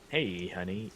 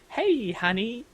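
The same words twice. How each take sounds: First: It is said in a deeper voice. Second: It is said in a higher voice.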